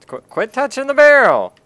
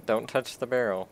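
First: Loud, high-pitched exasperated yell; stammered start into a shouted order. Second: Said in the usual way. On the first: Real, not acted. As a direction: yell a warning at the player. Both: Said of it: "Don't yell at me".

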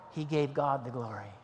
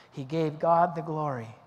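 First: Said in the usual way. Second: Emphatic weight on "God"; stress on God. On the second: Real, not acted. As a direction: lean firmly on the word "God". Repeats answer to stress God.

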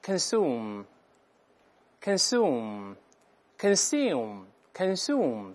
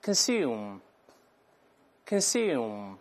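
First: Consume with plain oo, slow; American pronunciation. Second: Consume with the yoo sound; British pronunciation. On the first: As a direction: drop the y and say consume as kən-SOOM, slowly. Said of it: "当然在美音中会把耶去掉". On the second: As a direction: say consume as kən-SYOOM. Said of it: "先读一下动词". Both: Shown as a demonstration.

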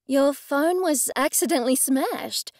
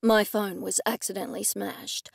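First: Higher, disbelieving question; incredulous echo. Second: Said in the usual way. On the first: A narrator's reading. Sybil repeats Blake's excuse back to him, incredulous. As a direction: query it sceptically, pitch lifted.

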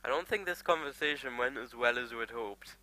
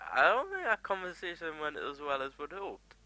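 First: Said in the usual way. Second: Mock understatement. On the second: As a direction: repeat it in a put-on higher voice. Repeats remark in put-on higher voice.

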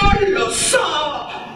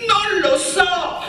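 First: High, drawn-out cry; shouting again. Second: High, slow cry over the crowd; shouting. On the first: Dina shouts her answer to Miretta, crying out. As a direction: call it out to be heard. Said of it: "gridò ancora Dina". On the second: Dina yells to Miretta over the crowd, shouting. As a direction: yell to be heard above the noise. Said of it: "Dina urlava per farsi sentire". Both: A narrator's reading.

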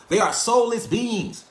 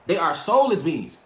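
First: Each word of soulless beings slowed and leaned on, pitch up; slow and emphatic. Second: Said in the usual way. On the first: Shown as a demonstration. Telling the viewers slowly, deliberately emphatic. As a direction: drag out They are soulless beings to make it land. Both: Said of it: "I'm being honest".

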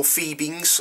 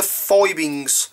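First: "Phoebings" with first syllable like "fee"; long-E pronunciation. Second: "Fibings" with first syllable like "fie"; long-I pronunciation. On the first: Leatherworker offering the other way to say it, long-E "Phoebings". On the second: Leatherworker naming a dye brand to a customer, long-I "Fibings". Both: Shown as a demonstration. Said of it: "whichever way you want to pronounce it".

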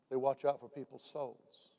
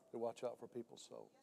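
First: "They watch out for people's souls" said slowly, each word weighted; slow emphasis. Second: "They watch out for people's souls" dropped much softer, like an echo. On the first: Preacher drives home the watchman's duty, slow and weighty. Repeated line, first take. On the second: Preacher repeats the point to the congregation, much softer. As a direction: let the repeat fall quiet and inward. Repeated line, second take. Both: Acted.

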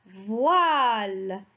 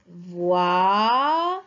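First: Said in the usual way. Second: "Voile" split into a long, rising "voi" and a separate "le"; syllable-by-syllable reading. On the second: Shown as a demonstration. Teacher reads a word together with children, "Voile" split by syllable. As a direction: sound out "Voile" in two drawn-out parts. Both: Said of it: "on le lit ensemble".

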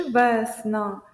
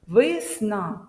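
First: «весна» slowly, with a full е in the first syllable; clear е. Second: «весна» slowly, first vowel said as a full и. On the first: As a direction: overpronounce the е in «весна». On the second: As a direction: overpronounce «весна» as висна. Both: Shown as a demonstration. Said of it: "е чи и".

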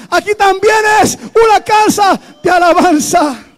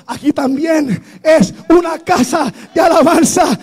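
First: Repeated even louder and higher, near a shout; louder proclamation. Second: Loud, raised proclamation; strong declaration. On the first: Preacher repeating the declaration to the congregation, shouting louder. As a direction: hammer it home the second time. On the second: Preacher declaring the church a house of praise, loud. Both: Real, not acted.

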